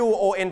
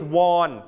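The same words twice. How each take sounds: First: "won" said exactly like "one", short a vowel; correct "won". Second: "won" said like Korean "วอน", rhyming with "on"; deliberately wrong "won" with an open o sound; wrong Korean-money reading. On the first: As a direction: past tense "won" rhyming with "sun". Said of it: "ไม่อ่านว่าวอนครับ อ่านว่า won". (อ่านว่า "won" เสียงเหมือน one) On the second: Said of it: "If you pronounce it won, it means the money of Korea ... ไม่อ่านว่าวอน". (อ่านผิดเป็น "วอน" แบบเงินเกาหลี) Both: Shown as a demonstration.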